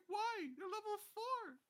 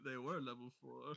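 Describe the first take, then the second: First: High, incredulous complaint; exasperated. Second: "were" stressed to mark the past. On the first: Retold or imitated. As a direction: protest in disbelief. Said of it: "And I'm like". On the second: Shown as a demonstration. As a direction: lean on "were" with a rising tune.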